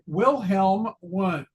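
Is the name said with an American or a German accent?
American. The name is said with an American accent. The speaker calls it wrong. "with a gringo accent"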